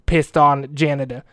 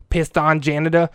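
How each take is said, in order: Both takes have the same delivery.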